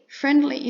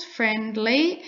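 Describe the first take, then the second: First: Said in the usual way. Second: "friendly" drawn out as two syllables, friend-lee. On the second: Shown as a demonstration. Teacher counting syllables for learners, "friendly" said as friend-lee. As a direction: separate the two beats of "friendly". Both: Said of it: "it's two syllables".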